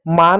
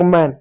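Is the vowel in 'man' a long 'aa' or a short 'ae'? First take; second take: long aa; short ae. First: The vowel is a long open 'aa' sound. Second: The vowel is a short front 'ae' sound. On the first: The word loses its meaning. The speaker calls it wrong. "मान हो गया" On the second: The word has its proper meaning. The speaker calls it right. "अब मैं इसी को अगर बोलूं"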